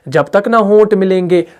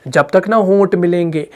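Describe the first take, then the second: No difference in how they are said.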